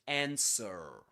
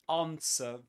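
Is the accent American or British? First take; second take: American; British. First: It is said in an American accent. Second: It is said in a British accent.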